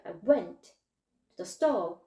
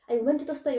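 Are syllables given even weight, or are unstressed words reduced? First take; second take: reduced; even. First: Unstressed words are reduced into the stressed ones. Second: Every syllable gets even weight, just spoken fast. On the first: The speaker calls it right. "I went 강세 들어가는 거에 I가 went에 먹힐게요" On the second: The speaker calls it wrong. "한국식으로 말을 하시면서 속도만 빠른 거예요"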